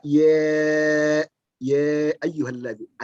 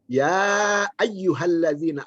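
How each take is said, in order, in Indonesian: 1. Vokal pertama adalah bunyi seperti 'e'. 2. Vokal pertama adalah bunyi 'a' terbuka.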